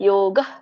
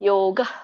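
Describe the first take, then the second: Both takes have the same delivery.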